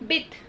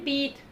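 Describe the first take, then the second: First: The vowel is said short and quick. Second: The vowel is drawn out long. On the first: The speaker calls it right. "उसे जल्दी से पढ़ेंगे" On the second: The speaker calls it wrong. "अगर आप उसे ऐसे पढ़ देते हैं बीथ, तो वो गलत हो जाएगा"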